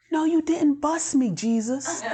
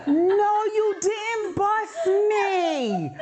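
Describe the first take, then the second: First: High, laughing "no you didn't"; half-laughing protest to Jesus; laughing disbelief. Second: Very high, slow, drawn-out laughing wail; a slow laughing wail of mock outrage; laughing cry. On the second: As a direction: wail it through laughter, stretched out. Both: Real, not acted.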